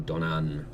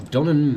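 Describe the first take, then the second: First: "Donnan" with the second A drawn out; alternative accented A. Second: "Donnan" with an ordinary unaccented A; first reading of Donnan. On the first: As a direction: try "Donnan" with a longer final A. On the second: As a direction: say "Donnan" as if the A had no accent. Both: Shown as a demonstration. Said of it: "not sure what that accent does to an A".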